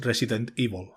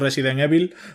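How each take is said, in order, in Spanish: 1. Se pronuncia con sonidos ingleses. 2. Se pronuncia con sonidos españoles. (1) "con su formato inglés" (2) "yo siempre he dicho"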